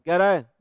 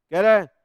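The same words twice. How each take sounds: The two takes are said the same way.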